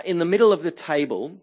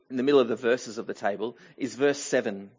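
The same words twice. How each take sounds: First: Said in the usual way. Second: Rushed and lower, fixing the slip; quick self-correction. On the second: Real, not acted. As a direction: hurry the corrected phrase under the breath. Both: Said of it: "well, actually".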